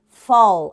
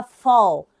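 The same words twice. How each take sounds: First: "fall" repeated alone, louder and stretched, falling tune; emphatic repeat. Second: Said in the usual way. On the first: Shown as a demonstration. Teacher repeating "fall" for students, loud and emphatic. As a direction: drill "fall" home for the class. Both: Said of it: "no American English a gente utiliza".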